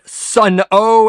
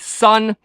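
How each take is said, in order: First: The name is said as two syllables. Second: The name is said as one syllable. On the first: The speaker calls it wrong. "as some mispronounce it" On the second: The speaker calls it right. "no, not Sun-O as some mispronounce it"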